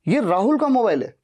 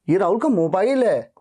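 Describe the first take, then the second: First: The stress is on Rahul. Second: The stress is on mobile.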